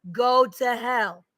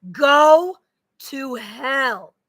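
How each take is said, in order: First: Very slow, each word dragged; stretched-out bitter curse. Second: Sharp loud curse; curse shout. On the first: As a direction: draw out Go to hell. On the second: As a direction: Go burst out higher and louder. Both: Real, not acted. Cursing an absent man.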